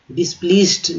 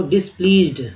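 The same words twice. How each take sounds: First: डिसप्लीज्ड said with an स sound; the wrong way, with स in डिसप्लीज्ड; wrong pronunciation. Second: डिसप्लीज्ड with a ज sound; correct pronunciation. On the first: Teacher showing students the wrong डिसप्लीज्ड. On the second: Teacher giving the right form of डिसप्लीज्ड. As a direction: say डिसप्लीज्ड with ज, not स. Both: Shown as a demonstration. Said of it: "डिसप्लीज्ड नहीं बोलते हैं लोग".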